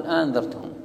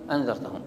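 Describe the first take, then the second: First: أنذرتهم with a lengthened opening, aa-andhartahum; two hamzas. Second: أنذرتهم with a single short opening a; one hamza dropped. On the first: Teacher shows two adjacent hamzas, long opening on أنذرتهم. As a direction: hold the doubled hamza at the start of أنذرتهم. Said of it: "همزتين متلاصقتين فتطرح إحداهما". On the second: Teacher shows one hamza thrown out, short start on أنذرتهم. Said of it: "فتطرح إحداهما". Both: Shown as a demonstration.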